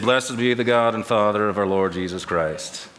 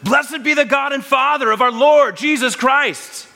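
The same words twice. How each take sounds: First: It is said flatly, without enthusiasm. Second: It is exclaimed with excited enthusiasm.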